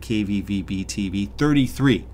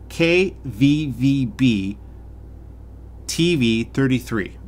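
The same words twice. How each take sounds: First: The letters are said at a quick pace. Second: The letters are said at a slow pace.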